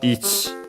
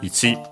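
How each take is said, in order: First: The final vowel is dropped. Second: The final vowel is clearly pronounced. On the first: "you might uh, hear it also as ich" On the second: "accented on uh, the last syllable, so ichi"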